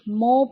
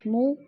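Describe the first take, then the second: First: The vowel sounds like o. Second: The vowel sounds like u. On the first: The speaker calls it wrong. "मीम पेश मो पढ़ दिया जाता है" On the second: The speaker calls it right. "मीम पेश मु"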